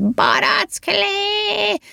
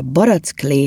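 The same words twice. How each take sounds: First: Very high, long-stretched screech; throat-tearing yell. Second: Said in the usual way. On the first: A narrator's reading. Elf's latest drink idea, a throat-tearing high yell. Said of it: "ilyesféle torokszakasztó ordítás formájában". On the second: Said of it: "amikor a barack klé hangzott fel".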